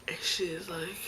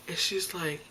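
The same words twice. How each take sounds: The two takes are said the same way.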